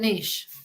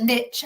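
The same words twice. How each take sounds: First: It is said with a British pronunciation. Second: It is said with an American pronunciation.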